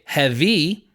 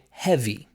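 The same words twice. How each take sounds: First: The stress is on the second syllable. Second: The stress is on the first syllable. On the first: The speaker calls it wrong. "I wouldn't say heavy" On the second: The speaker calls it right. "I would almost always say heavy"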